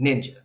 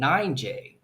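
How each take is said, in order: First: The first syllable is said as 'nin'. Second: The first syllable is said as 'nine'. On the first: It is the word for a Japanese warrior. The speaker calls it right. "it says N I N J A" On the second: It is taken for a woman's name. The speaker calls it wrong. "mispronounces it and thinks it's her name"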